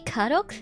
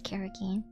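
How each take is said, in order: First: The word ends with an 'oak' sound. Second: The word ends with an 'okey' sound. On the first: The speaker calls it wrong. "Some say karok" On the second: The speaker calls it right. "this is how you um, pronounce karaoke"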